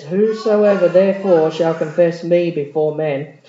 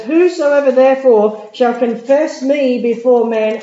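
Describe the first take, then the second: First: Said in the usual way. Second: Loud, slow scripture proclamation. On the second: Acted. Preacher booming the verse slowly to the congregation.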